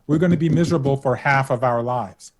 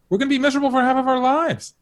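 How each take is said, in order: First: It is said noticeably more slowly. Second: It is said at a normal speaking pace.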